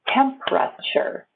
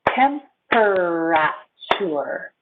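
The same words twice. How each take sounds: First: It is said quickly with three syllables. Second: It is said with four syllables. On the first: "I go short to three syllables" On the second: "It has four syllables"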